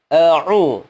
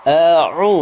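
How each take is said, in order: The two takes are said the same way.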